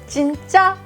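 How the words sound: It is said as a question.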